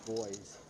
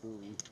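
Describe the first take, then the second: First: It is pronounced like 'boy', Canadian style. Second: It is pronounced 'boo-ee', American style.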